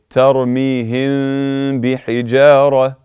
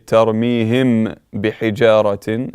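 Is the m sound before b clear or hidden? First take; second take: hidden; clear. First: The m is hidden without the lips closing. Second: The m is closed fully and said clearly. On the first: The speaker calls it right. "Your lips must not close" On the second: The speaker calls it wrong. "you do not say tarmihim bihijaratin, incorrect"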